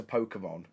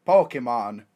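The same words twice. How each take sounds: First: Said in the usual way. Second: Lower, put-on Romanian accent. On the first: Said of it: "a Romanian accent for some reason". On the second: Drunk tourist explaining Pokemon to a Romanian policeman, put-on Romanian accent. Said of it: "I put on a Romanian accent".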